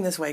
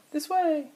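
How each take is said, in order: First: Said in the usual way. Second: High, drawn-out mock holler; play-yell it high without much volume. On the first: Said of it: "he's saying". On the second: Toy figure leaning back to Barry, mock yell. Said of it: "he's yelling".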